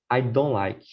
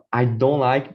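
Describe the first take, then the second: First: "I don't like" with a falling tune on "don't"; second version of "I don't like", falling tune; contrasting intonation. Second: "I don't like" with a lifted, emphatic "don't"; first version of "I don't like", stressed "don't"; intonation contrast. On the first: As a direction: let "don't" drop and settle. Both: Shown as a demonstration. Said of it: "it's very different when you say".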